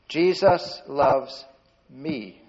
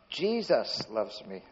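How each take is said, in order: First: The stress falls on the word me. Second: The stress falls on the word Jesus. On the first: The love is aimed at the speaker personally. "point to yourself if you can" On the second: It is this particular one who loves. "That's the one that was dead and"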